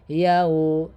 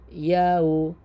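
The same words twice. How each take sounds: No difference in how they are said.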